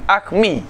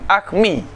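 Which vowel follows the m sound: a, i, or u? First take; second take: i; i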